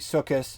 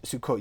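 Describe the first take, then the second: First: It ends with a soft s sound. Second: It ends with a hard t sound.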